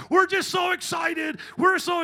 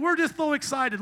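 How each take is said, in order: First: Shouted over-the-top promo hype, much higher; mock church promo. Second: Hammed-up church enthusiasm, higher and louder; mock excitement. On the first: Preacher parodying a church advertisement promo, hyped shout. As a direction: yell it like a cheesy church ad. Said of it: "Listen to any church advertisement promo". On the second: Preacher mocking church buzzword, mock gushing. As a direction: parody a gushing pastor.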